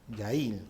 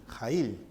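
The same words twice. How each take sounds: First: Yail, first letter said as a soft y glide; Yail with a Y sound. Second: Jail, first letter said as a rasping Spanish jota; Jail with a J sound. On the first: Teacher tries the student's name Yail with a y sound. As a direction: say Yail starting with a y like in yes. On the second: Teacher tries the name Jail with a Spanish jota. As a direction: say Jail starting with the throaty Spanish j. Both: Shown as a demonstration. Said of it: "Yail o Jail".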